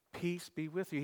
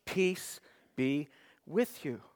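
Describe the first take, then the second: First: Gentle, quieter Peace be with you; softly echoed blessing; soft repeat. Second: Slow, weighty Peace be with you, leaning on with; solemn slow blessing; slow emphatic. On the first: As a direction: let "Peace be with you." fall soft and tender. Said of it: "second time". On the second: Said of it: "he s-, repeats it again". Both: Acted.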